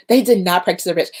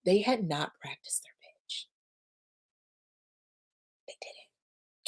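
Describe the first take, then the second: First: Said in the usual way. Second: Hushed, disbelieving whisper. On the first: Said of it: "I'm whispering 'cause I can't believe it". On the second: Real, not acted. Host confides that founders skipped pitch practice, whispering. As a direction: whisper it as if you can't believe it. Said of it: "Yes, I'm whispering".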